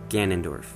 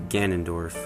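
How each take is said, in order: The two takes are said the same way.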